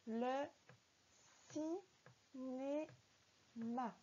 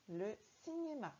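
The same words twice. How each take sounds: First: Very slow, syllables pulled apart; syllable-by-syllable reading. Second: Said in the usual way. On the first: Shown as a demonstration. Teacher sounding out a word for a beginning reader. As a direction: sound out each syllable of cinéma. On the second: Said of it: "allons-y ensemble pour la lecture".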